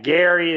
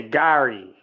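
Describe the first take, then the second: First: "Gary" with a plain standard a, as in "Gary". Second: "Gary" said like "Garry" with an open "ah", kah-ree; Pittsburgh Gary. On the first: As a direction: say "Gary" the usual way, open "air" vowel. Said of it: "instead of saying, like, Gary". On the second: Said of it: "they say Gary". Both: Shown as a demonstration.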